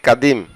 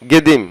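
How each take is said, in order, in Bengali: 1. শব্দটি 'k' ধ্বনি দিয়ে শুরু হয়। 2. শব্দটি 'g' ধ্বনি দিয়ে শুরু হয়। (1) "আমরা বলে থাকি কাদিম" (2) "সঠিক হচ্ছে গেদিম"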